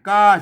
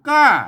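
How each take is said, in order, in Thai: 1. พยางค์ ka ออกเสียงด้วยเสียงเอก 2. พยางค์ ka ออกเสียงด้วยเสียงโท (1) "กาเสียงเอก" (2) "กาเสียงโทปกติ"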